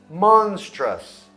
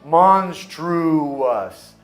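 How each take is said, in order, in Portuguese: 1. Não tem uma vogal 'oo' extra no meio. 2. Tem uma vogal 'oo' extra no meio.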